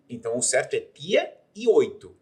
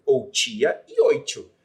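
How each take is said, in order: First: "tia" and "oito" with a plain hard T. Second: "tia" as "tchia" and "oito" as "oitchu", slow; palatal T. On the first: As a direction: say "tia e oito" with clean stop Ts. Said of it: "a fonética você usa tia". ("tia" e "oito" com T seco) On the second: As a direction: hiss both Ts in "tia e oito". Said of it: "Por que que o tia e o oito é que tá certo?". ("tia" e "oito" com T chiado, devagar) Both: Shown as a demonstration.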